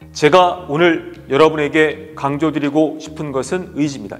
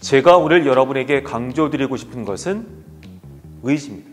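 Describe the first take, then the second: First: It runs on without a pause before the key word. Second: It runs on, then pauses before the key word. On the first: The speaker calls it wrong. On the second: The speaker calls it right.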